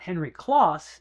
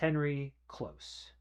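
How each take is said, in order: First: The surname's vowel sounds like in 'boss'. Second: The surname's vowel sounds like in 'close'. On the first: The speaker calls it wrong. "I've been mispronouncing the name" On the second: The speaker calls it right. "it's Henry Close"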